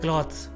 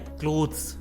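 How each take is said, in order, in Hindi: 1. स्वर की आवाज़ 'cloth' वाली जैसी है। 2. स्वर की आवाज़ 'close' वाली जैसी है। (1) "most of them call it क्लॉथ्स" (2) "actually इसका सही प्रोनाउंसिएशन है क्लोथ्स"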